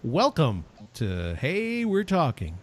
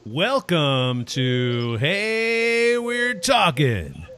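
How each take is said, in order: First: It is said with less energy. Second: It is said with more energy.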